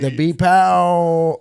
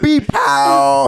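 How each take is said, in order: First: It is said flat, without much emphasis. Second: It is said with strong, hyped emphasis.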